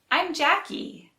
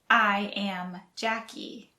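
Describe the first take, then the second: First: I am is shortened to one syllable. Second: I am is said as two full words. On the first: "we shorten it to" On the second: "the shortened form of"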